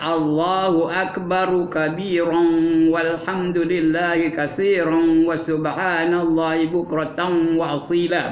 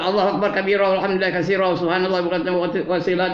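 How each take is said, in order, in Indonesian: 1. Akbar berakhir dengan vokal, disambung ke kabiran. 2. Akbar dipotong dan langsung disambung ke kabiran. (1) "Yang sebenarnya" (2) "itu tak betul tu. waqaf tidak, wasal tidak"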